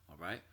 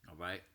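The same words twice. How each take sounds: No difference in how they are said.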